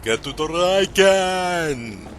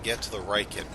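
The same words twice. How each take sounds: First: It is said in an exaggerated Austrian-style accent. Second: It is said in a plain, normal voice.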